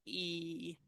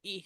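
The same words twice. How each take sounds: First: E stretched out as 'eee'; long E. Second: E said as a brief 'ih'; short E. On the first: Teacher contrasting two vowels, long E. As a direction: hold E long and steady. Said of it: "this one is a long E". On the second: Teacher contrasting two vowels, short E. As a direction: keep E short and quick. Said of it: "this is a short E". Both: Shown as a demonstration.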